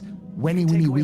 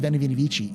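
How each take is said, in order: First: The first word begins with a W sound. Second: The first word begins with a V sound. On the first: The speaker calls it right. "V's or W's" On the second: The speaker calls it wrong. "It's not actually"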